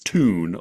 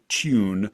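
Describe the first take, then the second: First: The vowel is a plain oo, with no y glide. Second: A y glide comes before the oo vowel. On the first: "Americans would mostly just say tune, like we're saying T O O N" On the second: "traditionally, the word's pronounced tune"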